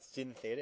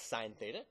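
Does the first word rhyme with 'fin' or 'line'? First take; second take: fin; line. First: The first word has a short vowel, like 'fin'. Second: The first word has a long vowel, like 'line'. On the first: The speaker calls it wrong. "Please do not call it sin. It's not sin theta" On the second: The speaker calls it right. "It's sine theta"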